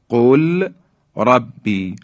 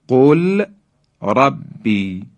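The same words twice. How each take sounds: No difference in how they are said.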